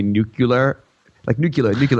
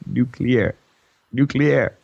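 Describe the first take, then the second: First: "nuclear" with a "kyuh-ler" ending, three syllables; three-syllable mispronunciation. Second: "nuclear" in two parts, "nu" plus "clear"; two-syllable correction. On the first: Retold or imitated. Podcaster imitating President Bush saying "nuclear", mispronounced. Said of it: "No, there's not three syllables". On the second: Shown as a demonstration. Podcaster demonstrating the right "nuclear", corrective two syllables. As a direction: say "nuclear" as noo-KLEER. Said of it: "There's only two".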